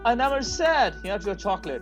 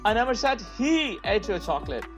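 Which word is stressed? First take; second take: said; he. First: The stress is on "said". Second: The stress is on "he".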